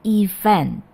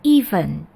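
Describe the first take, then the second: First: The stress is on the second syllable. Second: The stress is on the first syllable. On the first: The speaker calls it right. "penekanannya adalah pada suku kata kedua" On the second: The speaker calls it wrong. "jadi bukan event"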